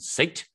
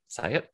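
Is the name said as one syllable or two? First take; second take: one; two. First: The name is said as one syllable. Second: The name is said as two syllables. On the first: The speaker calls it wrong. "That's not how you say it" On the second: The speaker calls it right. "You say it"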